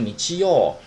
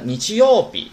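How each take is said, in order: First: The word ends without the final 'bi' syllable. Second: The word ends with a final 'bi' syllable. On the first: "可以说你七哟" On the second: "有时省略这个日语这个日这个读音b"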